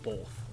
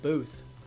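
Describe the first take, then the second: First: The vowel in the word is plain and short. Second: The vowel in the word is stretched and emphasized. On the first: This is how the speaker said it growing up. "I grew up saying both" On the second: This is how the speaker says it now. "Now I say it like a Canadian, like Booth. I put a little more emphasis on the O"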